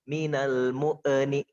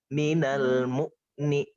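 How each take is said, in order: First: The silent consonant is released with an echoing bounce. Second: The silent consonant flows on without any bounce. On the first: The speaker calls it wrong. "Bukan minal mu'ni" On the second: The speaker calls it right. "Tapi minal mu'ni"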